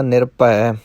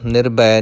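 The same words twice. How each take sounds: First: ਨਿਰਭੈ with Punjabi bh, like "nir-pai"; correct bh sound. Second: ਨਿਰਭੈ said with plain b, "nir-bai"; wrong b sound. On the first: Teacher corrects learners, ਨਿਰਭੈ as "nirpai". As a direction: say ਨਿਰਭੈ with a p-like tonal bh. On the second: Teacher shows learners the error, ਨਿਰਭੈ as "nirbai". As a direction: flatten the bh of ਨਿਰਭੈ to b. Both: Shown as a demonstration. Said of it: "ਨਿਰਭੈ ਨਹੀਂ ਕਹਿਣਾ".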